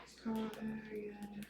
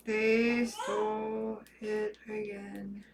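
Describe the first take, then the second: First: Whispered, breathless disbelief. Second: Soft and slow, stunned; quiet dismay. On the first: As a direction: whisper it to yourself, stunned. Repeats the news, whispered. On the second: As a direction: say it slowly under your breath in disbelief. Hacker steals account again. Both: Real, not acted.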